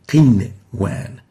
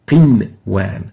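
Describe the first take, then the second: The two takes are said the same way.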